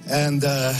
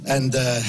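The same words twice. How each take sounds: The two takes are said the same way.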